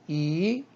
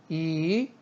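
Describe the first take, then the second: First: The pitch rises from mid to high. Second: The same.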